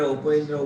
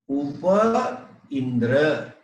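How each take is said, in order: First: The two words merge into one joined word. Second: Two words are said separately, vowels kept apart.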